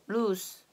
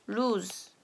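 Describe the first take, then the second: Both takes have the same delivery.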